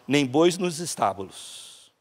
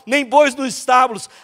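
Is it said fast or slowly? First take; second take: slowly; fast. First: It is said slowly. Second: It is said at a faster pace.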